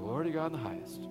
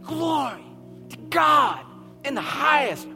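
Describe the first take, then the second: First: The phrase is said quietly and without energy. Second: The phrase is said loudly and with great energy. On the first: The speaker calls it wrong. "They weren't saying" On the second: The speaker calls it right. "They were like"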